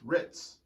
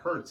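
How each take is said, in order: First: The name sounds like ritz. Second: The name sounds like hurts. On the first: The speaker calls it right. "it's Ritz" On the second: The speaker calls it wrong. "so it's not Hertz"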